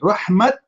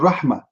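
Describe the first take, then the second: First: The word ends with a clear t sound. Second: The word ends with a soft h sound. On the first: "he pronounced it as rahmat" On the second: "did you hear the letter T? No. ... It's like letter H"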